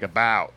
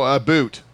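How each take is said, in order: First: "about" said with the ow sound, plain American. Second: "a boot" said with a long oo like boot; mock Canadian "a boot". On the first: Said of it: "Americans would say it more like". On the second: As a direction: say "a boot" the stereotype way. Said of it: "We say, oh". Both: Shown as a demonstration.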